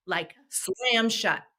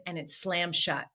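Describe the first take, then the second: First: Slammed drawn out slowly and leaned on, falling at the end; stress on slammed. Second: Said in the usual way. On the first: Shown as a demonstration. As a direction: hit slammed hard and slow so it lands.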